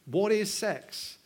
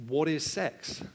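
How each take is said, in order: First: Each word drawn out, What is sex?; slow emphatic question. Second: Said in the usual way. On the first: Acted. Preacher presses his congregation, slow What is sex?.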